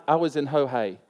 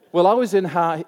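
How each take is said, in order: First: Ho Hay said with an oh sound, wrongly; mispronounced town name. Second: Well, I was in Ha, said haltingly; stumbling over the town name Ha; wrong try at Ha Hay. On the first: Preacher mispronounces the town, then laughs at himself. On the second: Preacher fumbles the town name in front of the congregation. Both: Shown as a demonstration. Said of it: "I asked you how to pronounce it and I got it wrong".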